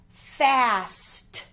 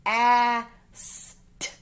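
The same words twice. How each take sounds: First: Said in the usual way. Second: "F-A-S-T" as four separate sounds, fff, short a, sss, t; sounded out. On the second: Shown as a demonstration. Teacher asking pupils to listen carefully, "F-A-S-T" sounded out. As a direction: say each sound of "F-A-S-T" alone, not letter names.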